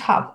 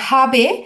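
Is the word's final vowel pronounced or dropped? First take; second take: dropped; pronounced. First: The final vowel is dropped entirely. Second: The final vowel is pronounced in full. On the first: The casual form native speakers use. "তারা কিন্তু হাব বলে। হাব হাব এই হাব এভাবে বলবে" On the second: The careful full form used for teaching. "আপনাদেরকে বোঝানোর জন্য মূলত হাবে বলছি"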